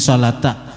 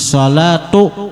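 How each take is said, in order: First: The word ends with an 'a' vowel. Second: The word ends with a 'u' vowel. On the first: The speaker calls it wrong. "Bacaannya di sini salata" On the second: The speaker calls it right. "nang bujur kama tambagis salatu ... Marfu"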